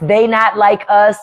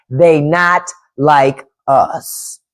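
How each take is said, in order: First: Said in the usual way. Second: "They not like us" very slow, a pause between words; slow word-by-word emphasis. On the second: Real, not acted. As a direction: space out "They ... not ... like ... us", pitch dropped. Repeats it word by word.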